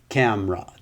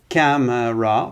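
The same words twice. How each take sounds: First: The word is said with two syllables. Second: The word is said with three syllables. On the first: "the middle syllable will disappear" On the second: "Camera is three, that's three syllables"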